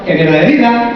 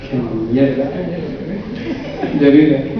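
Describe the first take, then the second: First: The phrase is said quickly with little feeling. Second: The phrase is said slowly with heavy, gloomy intonation. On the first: The phrase fails to bring on a low mood. The speaker calls it wrong. "Pero lo digo así" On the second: The phrase brings on a low mood. The speaker calls it right. "Tienes que dar una entonación. Si lo haces más despacito es mejor"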